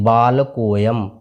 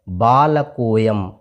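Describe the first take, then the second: No difference in how they are said.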